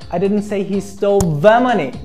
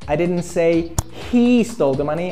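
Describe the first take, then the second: First: The stress falls on the word the. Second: The stress falls on the word he. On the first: A different sum of money was taken. "I meant another particular amount of money" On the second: Someone else took the money. "I said another guy stole the money"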